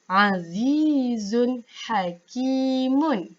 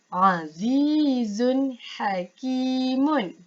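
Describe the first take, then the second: The two takes are said the same way.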